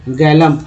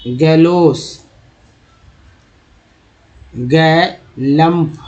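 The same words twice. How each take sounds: First: Said in the usual way. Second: गैलम्प drawn out slowly, syllable by syllable; teacher stretching गैलम्प out for students; slow sounding out. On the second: Shown as a demonstration. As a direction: read गैलम्प very slowly so each sound is clear. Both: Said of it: "ये देखिए L U".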